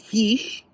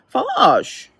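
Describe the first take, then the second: First: The vowel is a very short i sound. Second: The vowel is changed to a u-like sound. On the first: "it's really a short I" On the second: "change the I to like a U"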